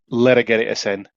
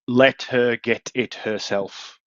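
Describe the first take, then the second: First: It is said in a Yorkshire accent. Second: It is said in a standard English accent. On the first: "which we would say" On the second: "there was an example of uh"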